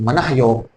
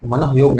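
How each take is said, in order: First: The first part ends in 'manah' with a breathy h. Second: The first part is joined as 'mano'. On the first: The speaker calls it right. "उसको बोलते हैं मनः योग।" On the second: The speaker calls it wrong. "मनोयोग नहीं"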